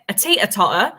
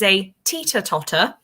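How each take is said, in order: First: The T sounds are dropped or glottal. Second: The T sounds are clearly pronounced.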